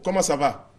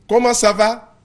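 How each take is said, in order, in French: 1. La question est dite sur un ton doux et tendre. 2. La question est dite sur un ton plus tranchant, moins tendre. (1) "c'est plus doux" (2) "C'est déjà moins doux"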